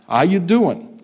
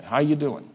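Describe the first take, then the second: First: Loud, high New Jersey greeting; New Jersey accent. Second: Easygoing Texas version of the greeting; Texas accent. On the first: Retold or imitated. New Jerseyan greeting a Texan in nineteen sixty-nine, New Jersey accent. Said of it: "We s-, say it with a different accent". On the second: Shown as a demonstration. Texans asking the same question, Texas accent. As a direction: say it less punchy, in a Texas accent. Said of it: "say it with a different accent".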